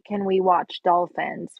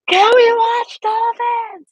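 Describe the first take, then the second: First: It is said at a normal, quiet volume. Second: It is said very loudly, like a roar.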